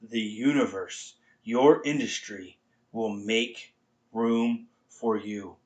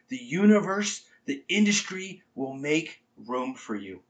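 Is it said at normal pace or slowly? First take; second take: slowly; normal pace. First: It is said slowly and deliberately. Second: It is said at a normal pace.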